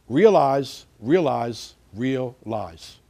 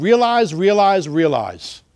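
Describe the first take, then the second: First: "Realize, realize, realize" one at a time, with pauses; spaced out slowly. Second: "Realize, realize, realize" in one quick, loud run; run together quickly. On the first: Teacher repeating a slogan for meaning, slow and separated. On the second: Teacher giving a slogan to remember, said in one run. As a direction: rattle off "Realize, realize, realize" without pauses, starting high. Wordplay said quickly, then spaced out. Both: Shown as a demonstration.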